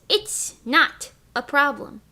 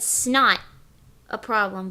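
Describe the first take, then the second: First: Each word is said clearly and separately. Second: The first words blur into one syllable. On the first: "what I said is it's not a problem" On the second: "It sounds like I said snot a problem"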